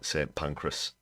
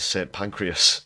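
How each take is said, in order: First: The second word has two syllables. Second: The second word has three syllables. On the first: The speaker calls it right. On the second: The speaker calls it wrong.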